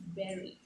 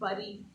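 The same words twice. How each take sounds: First: It is said like 'beri'. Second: It is not said like 'beri'. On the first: The speaker calls it right. "it's bury. It's bury someone. B E R I" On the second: The speaker calls it wrong. "It's not bury"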